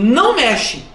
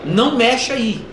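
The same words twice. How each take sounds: First: Firm parental order, pitch swooping up; firm command. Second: Put-on first, gentle-force warning to a toddler; mild warning. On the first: Acted. Parent to toddler who keeps touching, firm command. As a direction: stop the toddler with authority. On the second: Parent to toddler touching something dangerous, mild warning. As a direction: caution the toddler without much force. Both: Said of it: "mas você fala firme".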